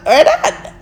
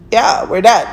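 First: "We're done" up high through a giggle; laughed repeat of "We're done" after the plain one; laughing. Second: Said in the usual way. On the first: Real, not acted.

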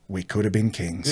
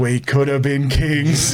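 First: Low, soft quoted musing; understated regret. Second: Slow, stretched-out punchline; drawn-out regret. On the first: Cousin musing to him on the lounges, understated regret. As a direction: say it quietly, dropping the pitch. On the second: Storyteller repeating cousin's line for laughs, drawn-out regret. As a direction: draw out each word, ending on a lingering KINGS. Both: Retold or imitated.

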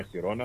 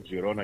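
First: Χιρόνα starting with a throaty "h"; Spanish pronunciation. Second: Τζιρόνα starting with a "j" or "dz" sound; alternative pronunciation. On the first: Host offering the other variant, Χιρόνα with "kh". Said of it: "αλλιώς η ισπανική προφορά". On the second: Host offering one variant, Τζιρόνα with "dz". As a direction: open Τζιρόνα on a voiced "dz". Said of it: "γι' αυτό το λέω και εγώ". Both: Shown as a demonstration.

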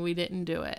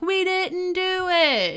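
First: Said in the usual way. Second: High, drawn-out mock chorus; imitated crowd yell. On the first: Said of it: "It's just, like, a hundred voices". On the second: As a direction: wail a denial like a whole trailer park. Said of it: "a hundred voices throughout the trailer park yelling".

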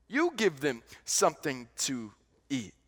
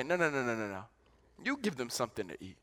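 First: Said in the usual way. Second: Softer, lower, calm insistence; gentle firm refusal. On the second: Acted. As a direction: quietly turn the request back on them. Jesus voiced answering disciples.

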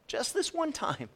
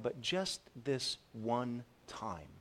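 First: Much higher, incredulous repeat of "Just this one time"; mocking echo. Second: Quiet drawn-out self-excuse, easing into it; soft, slow tempting excuse. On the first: Preacher mocking the congregation's favorite excuse, high and incredulous. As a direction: throw the excuse back, high and scoffing. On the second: Retold or imitated. Preacher voicing a congregant's excuse, soft and slow. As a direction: talk yourself into it, softly and slowly. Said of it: "Another excuse is".

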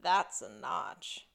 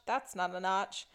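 First: Slow, low Crocodile Dundee parody reveal; pause, then land THAT'S slowly and low; movie-line parody. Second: Understated Crocodile Dundee parody, dismissive; movie-line parody. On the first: Host quoting a man finding the mark, slow low parody. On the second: Host quoting a man inspecting a tree, understated parody. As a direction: toss off THAT'S as a quick rejection. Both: Retold or imitated. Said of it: "pop culture reference here where he's like".

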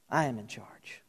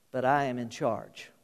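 First: Hushed, lower whisper of "I am in charge"; God whispering his assurance. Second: Quiet declaration. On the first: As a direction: breathe the words, intimate. God's voice repeated as whisper. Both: Acted.

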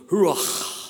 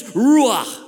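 First: Ruach with a long throaty, breathy final ch; Hebrew pronunciation. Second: Said in the usual way. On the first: Shown as a demonstration. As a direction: rasp out the end of "ruach" like a rush of air. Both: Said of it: "If you want to really be a Hebrew".

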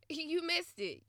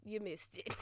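First: "You missed it" laughed out higher, mock gloating; laughing taunt. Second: "You missed it" dropped low and quiet; soft final taunt. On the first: Taunting the ex who missed his chance, laughing. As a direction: tease him through a laugh. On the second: Pretend. Final quiet jab at the ex who missed out. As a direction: let the last jab fall softly.

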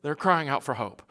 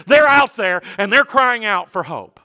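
First: Much softer, subdued preacher's echo; soft and low, letting it sink in; hushed repeat. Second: Higher, urgent preacher's voice; raised, fervent sermon delivery; impassioned preaching. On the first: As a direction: drop to a quiet, grave restatement. Same words repeated hushed for effect. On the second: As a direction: press it home to the congregation. Preacher urging congregation at full voice. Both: Real, not acted.

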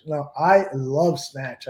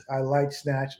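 First: Slow, leaning hard on "love"; stress on love. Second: Said in the usual way. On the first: Shown as a demonstration. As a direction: correct him by punching "love".

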